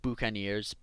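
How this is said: The word has a French-style pronunciation. It refers to the people who lived on Tortuga.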